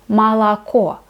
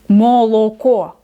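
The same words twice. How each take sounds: First: The first two vowels are weak and reduced. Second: The first two vowels sound like full O. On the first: The speaker calls it right. "первые две буквы О без ударения" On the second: The speaker calls it wrong. "Никто так не говорит"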